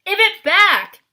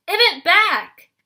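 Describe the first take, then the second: First: High, very loud furious yell; old hag yelling at her sister. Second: High, very loud, slow drawn-out yell; furious hag repeating her demand slowly. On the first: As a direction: scream to get the tooth back. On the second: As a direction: drag out each word in rage. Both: A narrator's reading.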